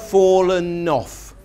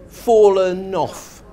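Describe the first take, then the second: No difference in how they are said.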